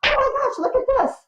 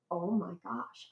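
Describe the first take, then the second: First: High, loud re-enacted squeal of discovery; excited squeal. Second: Soft, understated retold gasp of wonder; hushed amazement. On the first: Researcher re-enacting her find for the archives staff, excited squeal. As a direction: squeal it out like you've just struck treasure. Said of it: "squealing and going". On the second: Researcher recalling her find in the archives, hushed amazement. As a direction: say it under your breath in awe.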